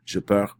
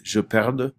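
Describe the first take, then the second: First: "je perds" ending on the R, no D or S; silent final consonants. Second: "je perde" with the D clearly sounded at the end; final D pronounced. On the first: French teacher contrasts the present tense, final consonants silent. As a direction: leave the DS of "perds" unsaid. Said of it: "we do not pronounce the". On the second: French teacher models the subjunctive for class, final D pronounced. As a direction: stress the final consonant D in "perde". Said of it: "putting emphasis on the D". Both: Shown as a demonstration.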